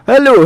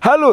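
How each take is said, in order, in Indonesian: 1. Suara keras itu terpotong dan terdengar terdistorsi. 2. Suara keras itu ditahan dan terdengar jernih. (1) "sembernya ada" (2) "Tentu tidak, jika menggunakan limiter"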